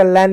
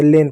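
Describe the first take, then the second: First: लैन with an open "ai" vowel, as in "lan"; wrong vowel. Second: लेन with a long "ay" vowel, as in "lane"; correct vowel. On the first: Teacher warning children off a misreading, open-vowel लैन. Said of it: "इसका लैन नहीं पढ़ेंगे". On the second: Teacher telling children how to read it, long-e लेन. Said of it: "लेन पढ़ेंगे". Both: Shown as a demonstration.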